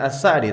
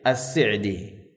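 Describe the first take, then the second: First: The s is followed by an a vowel. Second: The s is followed by an i vowel. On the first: This is the commonly heard form. The speaker calls it wrong. "bukan As-Sa'di" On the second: This is how his students and family said it. The speaker calls it right. "bi kasri sin"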